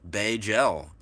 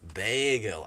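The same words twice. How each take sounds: First: The first vowel is short and clipped. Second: The first vowel is stretched out long. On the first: "We say bagel" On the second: "You say bagel. ... why stretch it out?"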